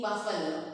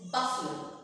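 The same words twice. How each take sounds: First: "buffalo" with a full middle vowel, buf-FAL-lo; common mispronunciation. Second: "buffalo" as BUFF-lo, middle squeezed; correct pronunciation. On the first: Teacher shows students' version, "buffalo" in three full syllables. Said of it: "might be saying buffalo". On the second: Teacher gives correct form, "buffalo" as BUFF-uh-lo. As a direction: hit the first syllable of "buffalo", shrink the middle. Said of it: "the correct pronunciation is buffalo". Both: Shown as a demonstration.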